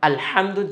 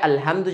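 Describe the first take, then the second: First: The h is pushed out deep from the throat. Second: The h is a light, plain breathy sound. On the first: The speaker calls it right. "হাটা গলায় থেকে বের না করার কারণে" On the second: The speaker calls it wrong. "আলহামদু যদি কেউ পড়ে, শব্দটা পুরোটার অর্থ চেঞ্জ হয়ে যাবে"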